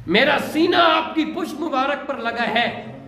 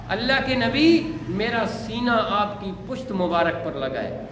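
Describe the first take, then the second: First: Repeated with more lift and emphasis; the tender line said again with fervour; lovingly. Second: Lovingly. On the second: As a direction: say it with devoted love. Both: A narrator's reading. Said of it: "بڑے پیار سے کہا".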